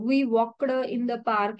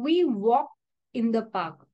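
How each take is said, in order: First: Walked ends with a separate d sound. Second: Walked ends without a separate d sound. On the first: The speaker calls it wrong. "बरेच जण असं प्रोनाऊन्स करतात" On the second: The speaker calls it right. "इथे मी काय उच्चार करते, ... इथे मी वॉकड नाही म्हणते"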